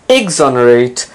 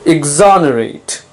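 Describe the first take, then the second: First: The stress is not on the second syllable. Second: The stress is on the second syllable. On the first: The speaker calls it wrong. "It's not exonerate" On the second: The speaker calls it right. "Notice the stress is on the second syllable"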